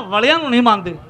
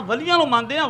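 First: ਵਲਿਆਂ punched with a short vowel, then falling; ਵਲਿਆਂ stressed, closing on a firm fall. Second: ਵਲੀਆਂ with a long ee, phrase rising at the end; ਵਲੀਆਂ said quickly with an affirming lift; contrast on ਵਲੀਆਂ. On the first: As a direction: hit ਵਲਿਆਂ as the rejected word. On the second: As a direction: set up ਵਲੀਆਂ as the accepted word, high and open-ended. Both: Shown as a demonstration. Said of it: "ਵਲੇ ਉਹਨੂੰ ਕਹਿੰਦੇ ਨੇ".

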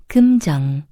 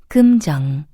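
The two takes are said the same way.

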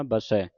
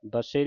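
First: ਬਸੈ ending in an open "ai", as in "cat"; ਬਸੈ as "ba-sai", the corrected reading. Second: ਬਸੇ ending in a closed "ay"; ਬਸੇ as "ba-say", the mistaken reading. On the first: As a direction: open up the last vowel of ਬਸੈ. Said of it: "ਬਸੇ ਨਹੀਂ ਪੜ੍ਹਨਾ". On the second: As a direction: end ਬਸੇ on a narrow e. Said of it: "ਨਹੀਂ ਪੜ੍ਹਨਾ". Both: Shown as a demonstration.

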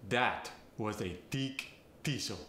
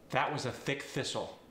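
First: Thick thistle said tick tistle; Farsi accent. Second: Said in the usual way. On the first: Shown as a demonstration. Coach demonstrating a Farsi accent, a tick tistle. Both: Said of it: "The voiceless T H gets replaced with a T".

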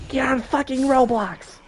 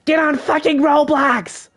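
First: High, mocking yell of a whiny classmate; pitched-up mock nag; mock friend yelling. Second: Much higher, slow, stretched mocking yell; imitating a classmate who nags every day; mock whiny yell. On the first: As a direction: throw it out like the kid nagging you at school. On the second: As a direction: drag it out like the annoying kid next to you. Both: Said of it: "every single day he just goes".

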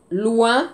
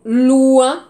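First: Said in the usual way. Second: Loin called out loud with a rising tune; loud teacher's model of Loin; loud model word. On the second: Shown as a demonstration. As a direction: project Loin so the class hears the French sound.

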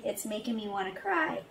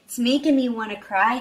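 First: Choked up, softer. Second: Said in the usual way. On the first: Real, not acted.

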